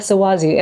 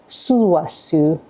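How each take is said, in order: First: The name is said with an Americanized pronunciation. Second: The name is said with its original pronunciation. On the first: The speaker calls it wrong. "like a generic American girl" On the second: The speaker calls it right. "it's Suwasu"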